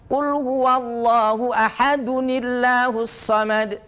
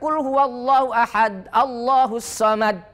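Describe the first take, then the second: First: Ahad runs into Allahus with an added -nil. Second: Ahad ends abruptly, then Allahus starts fresh. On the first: The speaker calls it right. "Kalau tidak berhenti namanya wasol, tidak bernafas" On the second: The speaker calls it wrong. "Jangan baca"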